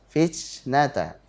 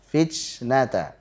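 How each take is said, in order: The two takes are said the same way.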